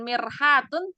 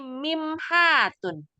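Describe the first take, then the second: First: The middle consonant is an r sound. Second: The middle consonant is an m sound. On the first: The speaker calls it wrong. "bukan mirhatun" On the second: The speaker calls it right. "tapi mimhatun"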